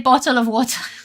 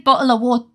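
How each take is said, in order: First: The T sounds are clearly pronounced. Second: The T sounds are dropped or glottalized. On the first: "I say bottle of water. So people take away my Brit card because I pronounce my T's" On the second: "I don't say bottle of water"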